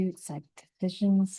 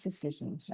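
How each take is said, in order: First: Said in the usual way. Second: "decisions" dropped much softer, to herself; soft musing echo of "decisions"; muttered repeat. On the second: Real, not acted. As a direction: trail off "decisions" under her breath while thinking.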